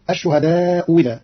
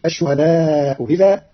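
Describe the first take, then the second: First: إذا said as wi, ash-shuhadaa-wi-dha; hamza made waw. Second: إذا with the second hamza eased between; softened hamza. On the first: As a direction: say الشهداء إذا with a w sound for the second hamza. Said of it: "أو". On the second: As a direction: say الشهداء إذا with the hamza of إذا half-said, slow. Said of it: "فتصير". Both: Shown as a demonstration.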